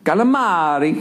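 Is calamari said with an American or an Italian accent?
Italian. It is said with a lively Italian accent. The speaker calls it right. "The way you say it sounds great"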